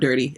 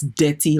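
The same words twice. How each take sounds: First: The first vowel sounds like in 'dirt'. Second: The first vowel sounds like in 'debt'. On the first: The speaker calls it wrong. "it's not dirty" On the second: The speaker calls it right. "It's dirty, like it's D E T T Y"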